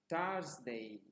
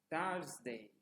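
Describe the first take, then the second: No difference in how they are said.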